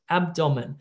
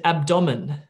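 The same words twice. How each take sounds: First: The stress falls on the expected syllable. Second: The stress falls on an unexpected syllable. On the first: The speaker calls it right. "correct word stress" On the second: The speaker calls it wrong. "What about if I said abdomen"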